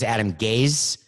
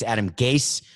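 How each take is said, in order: First: The name ends with a z sound. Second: The name ends with an s sound. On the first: The speaker calls it wrong. "I thought it was Adam Gaze, as in I'm gazing into the future" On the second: The speaker calls it right. "it's Adam Gase that rhymes with case"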